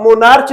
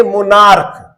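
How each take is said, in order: First: मोनार्च said ending in च; wrong ch sound. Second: मोनार्क with a hard क ending; मोनार्क ending clearly in क; correct k sound. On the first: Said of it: "इसको हम मोनार्च नहीं पढ़ेंगे". (मोनार्च, अंत में च की ध्वनि) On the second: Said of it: "इसको पढ़ेंगे मोनार्क". (मोनार्क, अंत में क की ध्वनि) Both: Shown as a demonstration.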